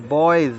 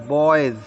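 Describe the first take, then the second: The two takes are said the same way.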